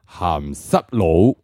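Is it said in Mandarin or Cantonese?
Cantonese. It is said in Cantonese.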